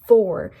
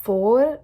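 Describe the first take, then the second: First: The R is said with the tongue curled up. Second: The R is a plain, uncurled sound. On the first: The speaker calls it right. "roll your tongue upwards and say R. So it's for" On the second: The speaker calls it wrong. "it's not for or the R, normal R sound"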